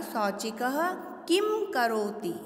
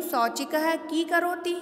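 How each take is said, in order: First: किम said clearly as kim with a closing m; correct anusvara. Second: की said as plain long kee with no m sound; wrong reading, no anusvara. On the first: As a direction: close किम on a distinct m, slowly. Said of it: "हमको इसका उच्चारण करना पड़ेगा". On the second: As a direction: read की flatly as kee before करोति. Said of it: "तो ये अशुद्ध है". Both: Shown as a demonstration.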